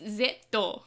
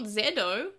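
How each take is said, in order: First: The middle consonant is a clear T sound. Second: The middle consonant is a soft D sound. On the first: The speaker calls it right. "it's Zeto with a T" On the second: The speaker calls it wrong. "It's it's not Zedo"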